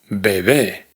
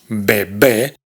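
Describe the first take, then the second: First: The second b is soft and smooth. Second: The second b is a hard stop. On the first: The speaker calls it right. "la segunda B es mucho más suave que la primera" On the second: The speaker calls it wrong. "no pronunciamos bebé"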